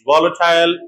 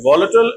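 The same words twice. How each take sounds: First: The last syllable has a full 'eye' vowel. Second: The last syllable is reduced, without 'eye'.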